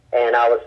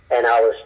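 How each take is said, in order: Both takes have the same delivery.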